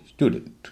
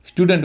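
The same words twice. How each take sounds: First: "स्टूडेंट" with a y-glide, STYOO-dunt; "स्टूडेंट" said as "styudant"; correct pronunciation. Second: "स्टूडेंट" with plain oo, STOO-dent; "स्टूडेंट" mispronounced as "stoodent"; common mispronunciation. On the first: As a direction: slip a y after the t in "स्टूडेंट". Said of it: "होना चाहिए स्टूडेंट". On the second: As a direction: drop the y-glide from "स्टूडेंट". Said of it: "लोग स्टूडेंट कहते हैं". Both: Shown as a demonstration.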